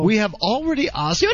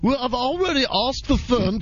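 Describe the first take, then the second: First: It is read in the speaker's normal accent. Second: It is read in a put-on British accent.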